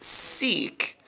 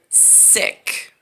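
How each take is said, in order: First: The vowel is a long 'ee' sound. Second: The vowel is a short 'i' sound. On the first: "I thought it was pronounced Seek" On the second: "they pronounce it Sick, which like like a S I C"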